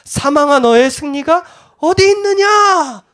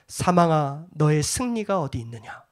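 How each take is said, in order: First: It is read in a mocking, taunting tone. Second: It is read in a plain, declarative tone.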